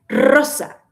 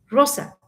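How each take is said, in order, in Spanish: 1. La r es una vibración fuerte y rodada. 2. La r es suave, con poca vibración. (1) "la pronunciación correcta sería rosa" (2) "Y está bien"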